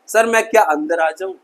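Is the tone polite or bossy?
polite. It is said in a polite, respectful tone.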